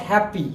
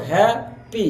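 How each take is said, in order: First: Said in the usual way. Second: হ্যাপি broken in two, "hya... pi"; teacher sounding out হ্যাপি syllable by syllable; split into syllables. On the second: Shown as a demonstration. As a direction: say হ্যাপি as two separate beats with a gap. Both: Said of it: "এই ওয়ার্ডটা দুইবারে উচ্চারিত হয়েছে".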